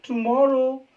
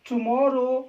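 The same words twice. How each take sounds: The two takes are said the same way.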